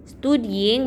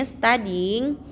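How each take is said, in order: First: "studying" as stoo-dying, with u; oo vowel opening "studying"; spelling pronunciation. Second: "studying" as stah-ding; a vowel in place of u in "studying"; correct reading. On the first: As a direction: read "studying" as written. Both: Shown as a demonstration. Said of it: "bacanya studying".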